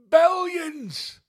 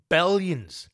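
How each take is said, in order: First: Billions shot up into a squeal; high-pitched gleeful billions; squeaky high billions. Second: Said in the usual way. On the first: Acted. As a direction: squeal the word billions with glee. Repeated with comic squeal.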